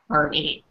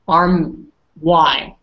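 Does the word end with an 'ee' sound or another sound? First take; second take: ee sound; another sound. First: The word ends in an 'ee' sound. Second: The word does not end in an 'ee' sound. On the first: The speaker calls it right. "We pronounce it arm e, like with an e at the end" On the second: The speaker calls it wrong. "usually you would think it's like uh, arm and then like like arm y, but it's not"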